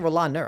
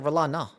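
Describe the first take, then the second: First: The name ends with an r sound. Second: The name ends with a plain ah sound. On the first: The speaker calls it wrong. "It sounded like you said Rolaner. I don't say Rolaner" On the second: The speaker calls it right. "I say Rolana"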